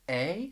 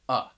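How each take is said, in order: First: The article is said with a full stressed vowel. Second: The article is said with a short unstressed schwa. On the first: "you might hear people pronounce it like a" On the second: "which is the schwa sound, and that is an unstressed vowel sound"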